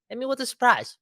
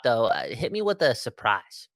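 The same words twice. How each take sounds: First: Much higher, bouncy "Hit me with a surprise"; playful high repeat. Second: Said in the usual way. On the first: Shown as a demonstration. Host teasing co-host for a surprise pick, playful high. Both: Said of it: "repeats request, second time higher".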